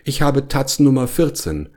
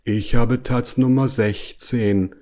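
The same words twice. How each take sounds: First: High, lightly voiced bear; a mild high-pitched complaint; complaining bear. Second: Slow, understated annoyance; indignant bear. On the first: Bear explains his paw won't fit. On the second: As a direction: drag out the words, mildly indignant. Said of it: "sah erbost auf seine großen". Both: A narrator's reading.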